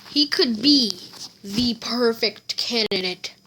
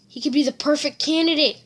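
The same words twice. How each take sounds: First: Said in the usual way. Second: Higher and fast, excited mutter of "candidate"; All Might musing. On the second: Acted. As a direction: blurt the thought quickly. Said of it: "And All Might's like".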